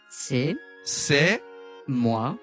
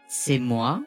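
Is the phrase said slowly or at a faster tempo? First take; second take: slowly; faster. First: It is said slowly, syllable by syllable. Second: It is said at a faster, joined-up tempo. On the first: "ゆっくりお願いします" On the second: "テンポ上げてお願いします"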